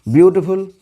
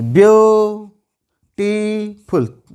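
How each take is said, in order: First: Said in the usual way. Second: beautiful stretched into three held beats; syllable by syllable. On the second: Shown as a demonstration. Teacher showing students three syllables, beautiful drawn out and split. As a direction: slowly chant "view... टी... फुल", pausing between syllables. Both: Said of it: "तीन syllable है".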